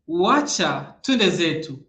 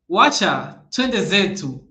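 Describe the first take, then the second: The two takes are said the same way.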